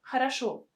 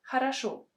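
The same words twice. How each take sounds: No difference in how they are said.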